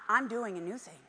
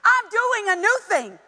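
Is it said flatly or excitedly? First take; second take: flatly; excitedly. First: It is said flatly, without excitement. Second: It is said excitedly, with exclamation.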